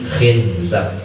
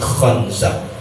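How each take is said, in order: First: The first vowel is an i sound. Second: The first vowel is an open a sound. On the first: "ada yang mengkasrohkannya" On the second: "ada ulama yang memfathahkan kha-nya"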